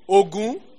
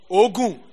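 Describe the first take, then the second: First: It has the tone pattern of the war god's name. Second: It has the tone pattern of the word for sweat. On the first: The word names the god of war and iron. "Ogun is what? The god of war" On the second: The word means sweat. "Ogun. Sweat"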